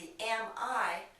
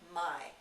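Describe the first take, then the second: First: Both words are said separately and in full. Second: The words merge into one short syllable.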